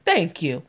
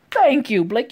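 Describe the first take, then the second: First: Said in the usual way. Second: "Thank you" punched high and loud; emphatic cheer. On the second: Real, not acted. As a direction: belt out "Thank you" in exasperated approval. Louder second cheer for Blake.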